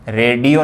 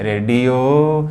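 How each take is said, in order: First: रेडियो with a short, clipped final o; wrong short o. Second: रेडियो, slow, with the final o drawn out long; long o sound. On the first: Teacher showing students the wrong रेडियो, short o. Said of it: "रेडियो नहीं". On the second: Teacher showing students the right रेडियो, long o. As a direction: stretch the o at the end of रेडियो. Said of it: "देखिए ओ का लंबा sound ज़रा है". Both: Shown as a demonstration.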